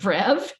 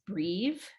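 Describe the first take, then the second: First: The vowel is said short, like 'eh'. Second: The vowel is said long, like 'ee'. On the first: This is the speaker's own usual way. "I pronounce it brev" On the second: A lot of people say it this way. "I don't pronounce it breve"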